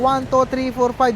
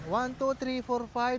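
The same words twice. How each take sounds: First: The voice is recorded at a normal loudness. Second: The voice is recorded much quieter than normal. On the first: "nasa normal lang tayo ngayon? Hindi siya mahina, hindi rin siya malakas" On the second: "negative twelve. Anong napansin nyo, di ba humina yung boses ko?"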